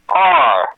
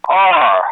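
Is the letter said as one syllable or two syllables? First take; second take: one syllable; one syllable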